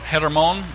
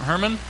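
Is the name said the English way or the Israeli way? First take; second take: Israeli; English. First: The name is said with an Israeli pronunciation. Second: The name is said with an English pronunciation.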